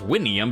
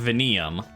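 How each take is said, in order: First: The name is said in a classical style. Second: The name is said in an Italian style. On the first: It is the older form of the name. "they're doing it classically" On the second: It is the later form of the name. "the later, like, Italian pronunciation"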